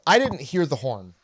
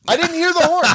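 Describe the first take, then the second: First: Said in the usual way. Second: Squeaky, loud fake innocence; high innocent whine.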